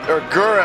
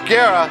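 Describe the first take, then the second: First: The name is said with an anglicized vowel. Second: The name is said with a Spanish-sounding vowel. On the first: The speaker calls it right. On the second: The speaker calls it wrong.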